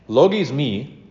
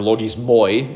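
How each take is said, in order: First: The word is said the non-Erasmian way. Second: The word is said the Erasmian way. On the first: The speaker calls it right. "that's not the way I was taught" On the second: The speaker calls it wrong. "if you're going to do the Erasmian pronunciation"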